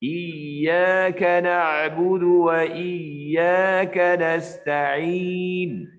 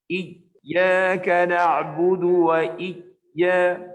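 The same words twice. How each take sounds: First: Slow chant, the ya of Iyyaka flowing on; right tajwid, voice never cut; correct recitation. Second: Iyyaka with the voice cut off on ya; faulty tajwid, ya clipped shut; wrong recitation. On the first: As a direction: let the ya in Iyyaka keep sounding. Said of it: "Cara yang betul ialah". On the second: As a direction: choke off the ya in Iyyaka like a stop. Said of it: "nah, itu tak betul". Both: Shown as a demonstration.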